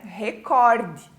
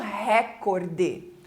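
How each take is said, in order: First: The stress is not on the first syllable. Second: The stress is on the first syllable. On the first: The speaker calls it right. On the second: The speaker calls it wrong.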